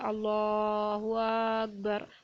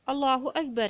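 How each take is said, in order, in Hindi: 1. अलिफ़ की स्वर-ध्वनि को बहुत ज़्यादा खींच दिया जाता है। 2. अलिफ़ की स्वर-ध्वनि सामान्य लंबाई में पढ़ी जाती है।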